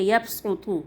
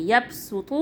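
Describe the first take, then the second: First: یبسطو with a heavy, rounded s; emphatic s before the طو; Saad sound. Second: یبسطو with a light, thin s; thin s before the طو; Seen sound. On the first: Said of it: "صاد کی آواز نکال لیجیے". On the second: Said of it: "سین کی آواز نکال لیجیے". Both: Shown as a demonstration.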